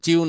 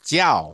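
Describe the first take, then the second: First: The syllable ends in an 'iu' sound. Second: The syllable ends in an 'iao' sound. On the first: The speaker calls it wrong. "এখানে চিউ না" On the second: The speaker calls it right.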